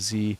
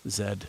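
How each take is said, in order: First: The letter is said the American way. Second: The letter is said the British way. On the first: "instead of Z" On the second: "So you start saying things like Z"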